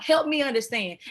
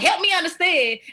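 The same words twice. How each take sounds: First: The tone is calm and sincere. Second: The tone is sharp and hostile. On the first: The speaker genuinely wants to understand. The speaker calls it right. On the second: The speaker is attacking rather than asking. The speaker calls it wrong. "don't be like"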